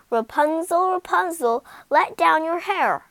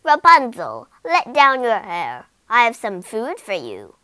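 First: Higher, louder sing-song call. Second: Loud call, much louder on her name; witch calling up. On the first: Calling up to Rapunzel to let down her hair, louder. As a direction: call up the tower. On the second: Witch calling up to Rapunzel to let down her hair, loud. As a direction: shout up to the tower window. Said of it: "the witch called from outside". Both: Acted.

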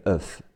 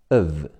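First: "of" ending in a voiceless f; mistaken f ending. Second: "of" ending in a voiced v sound. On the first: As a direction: say "of" wrongly as uhf. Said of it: "不是of". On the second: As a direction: say "of" as uhv, with buzzing v. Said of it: "发v的音". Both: Shown as a demonstration.

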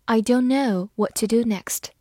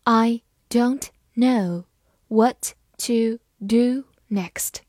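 First: Said in the usual way. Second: Slow, every word separated; deliberate slow dictation pace; slow read-along. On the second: Shown as a demonstration. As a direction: read it slowly for students to follow. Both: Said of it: "跟着我慢读一遍".

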